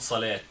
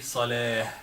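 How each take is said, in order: First: The word ends with a t sound. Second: The word ends with a soft h sound. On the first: The speaker calls it wrong. "not salat" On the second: The speaker calls it right. "when you say only salah and stop, you say salah"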